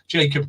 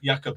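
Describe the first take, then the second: First: The name is pronounced the English way. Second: The name is pronounced the Dutch way.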